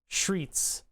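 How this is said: The word begins with a 'shr' sound. "one of the Philly accent things is to say S C H R E T S"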